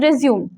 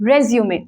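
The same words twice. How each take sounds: First: The word ends without a 'may' sound. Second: The word ends with a 'may' sound. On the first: It means continuing after a pause. "resume is जब आपने pause किया उसको दोबारा play किया, that is resume" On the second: It means a document about one's career. "re, zu, may... The correct pronunciation is resume"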